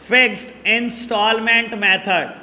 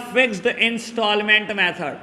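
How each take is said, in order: First: "fixed instalment method" measured, words set apart; dictation. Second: Said in the usual way. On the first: Shown as a demonstration. Teacher repeating another name for students, measured dictation.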